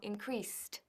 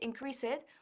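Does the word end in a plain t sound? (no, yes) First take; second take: yes; no. First: The ending is a plain t sound. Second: The ending is not a plain t sound. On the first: The speaker calls it right. "se dice t" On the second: The speaker calls it wrong. "No se dice increased, uf, no"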